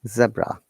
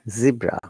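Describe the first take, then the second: First: It is said with a British accent. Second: It is said with an American accent. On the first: "in British English, we call it zebra" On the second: "Americans and Canadians pronounce it zebra"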